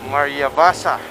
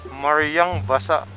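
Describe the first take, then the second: First: Maria runs into Basa with no 'ng' sound. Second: An 'ng' sound links Maria to Basa. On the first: The speaker calls it right. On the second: The speaker calls it wrong.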